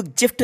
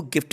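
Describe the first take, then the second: First: "गिफ्ट" said with a j, like jift; the wrong take: "गिफ्ट" as jift; "गिफ्ट" opening on a j sound; wrong soft j. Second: "गिफ्ट" with a hard g, as in go; the right take: "गिफ्ट" with a hard g; "गिफ्ट" opening on a hard g. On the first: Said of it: "इसको गिफ्ट नहीं बोला जाएगा". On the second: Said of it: "गिफ्ट ही पढ़ना है". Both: Shown as a demonstration.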